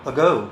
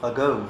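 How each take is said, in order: First: The first vowel is a short schwa. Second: The same.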